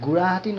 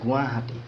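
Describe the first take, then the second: First: The middle consonant is an r-like sound. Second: The middle consonant is a w-like sound. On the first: The speaker calls it wrong. "গুড়াহাটি নহয়" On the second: The speaker calls it right. "এইটো গুৱাহাটী দেই"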